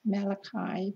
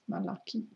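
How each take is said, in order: First: The name is given an English pronunciation. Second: The name is given a Hebrew pronunciation. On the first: "Some Christians pronounce it as" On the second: "but in Hebrew it's"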